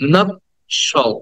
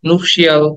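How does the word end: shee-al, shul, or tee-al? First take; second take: shul; shee-al. First: The word ends with a short 'shul' sound. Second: The word ends with a 'shee-al' sound. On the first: The speaker calls it right. "The correct pronunciation should be" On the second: The speaker calls it wrong. "নুপশিয়াল, অনেক কিছুই বলি"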